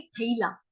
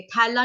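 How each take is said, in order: First: थैला with a gliding a-i vowel, "tha-i-laa"; थैला as "thailaa", two-part vowel; correct diphthong demo. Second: थैला with a single open "ae" vowel, "thaela"; थैला with a flattened single vowel; wrong vowel demo. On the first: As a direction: glide from a into i in थैला. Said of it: "उसको कैसे बोलेंगे". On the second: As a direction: say थैला the colloquial way, as "thella". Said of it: "ऐ नहीं बोलेंगे". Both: Shown as a demonstration.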